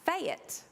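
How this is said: The word is drawn out into two syllables. "Fayette was how I said fat"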